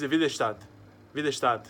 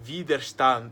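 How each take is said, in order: First: "Widerstand" run together with a loose, softened ending; Portuguese-ised German. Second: "Widerstand" carefully articulated, syllable by syllable; clear, slower German. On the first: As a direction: say "Widerstand" quickly, as a Brazilian would in Portuguese sounds. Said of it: "tá emportuguesando a palavra em alemão". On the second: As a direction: pronounce "Widerstand" slowly with a distinct final consonant. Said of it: "falar de forma clara e mais devagar". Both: Shown as a demonstration.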